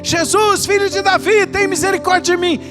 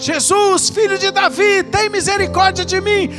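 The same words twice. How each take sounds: The two takes are said the same way.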